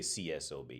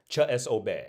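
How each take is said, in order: First: The letters are said with English letter names. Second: The letters are said with Czech letter names. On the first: "but we would say" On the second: "That's how I pronounce it in Czech"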